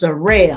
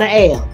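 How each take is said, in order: First: An r sound is linked before ale. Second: No r sound is linked before ale. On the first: The speaker calls it right. "It's a rail" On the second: The speaker calls it wrong. "not a ale"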